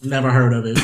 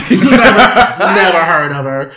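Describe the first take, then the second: First: Understated mock-clueless reply; offhand imitation of someone out of the loop; Rob. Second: Loud, slow, laughing mock denial; hammed-up imitation of a clueless co-host; Rob. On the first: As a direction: lightly imitate a co-host's blank dismissal. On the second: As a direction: drag it out loudly through laughter. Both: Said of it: "Rob will be like".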